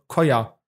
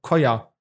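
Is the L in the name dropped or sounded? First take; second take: dropped; dropped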